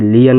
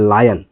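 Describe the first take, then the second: First: लियन said as "lee-an", as the word is spelt; wrong pronunciation. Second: लायन said as "laa-yan", long aa then yan; correct pronunciation. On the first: Teacher showing the mistake to avoid: लियन as "lee-an". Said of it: "नहीं कि लियन नहीं पढ़ते हैं". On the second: Teacher showing students the right way: लायन as "laa-yan". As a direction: say लायन with a clear "aai" glide. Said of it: "इसको पढ़ते हैं लायन". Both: Shown as a demonstration.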